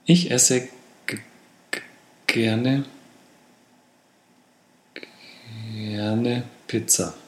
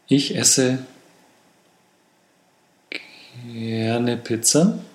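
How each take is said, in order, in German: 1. Das Wort wird gestottert und dann nach einer Pause erneut gesagt. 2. Das schwere Wort beginnt langsam und sanft, ohne zu stottern. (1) "Oder nachbessern" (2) "Im Vorbereitungsset"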